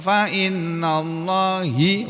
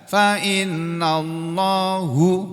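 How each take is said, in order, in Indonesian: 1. Kata Allah berakhir dengan vokal i. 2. Kata Allah berakhir dengan vokal u. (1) "oh lebih salah lagi" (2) "enggak bisa dibaca fa innallahu, salah"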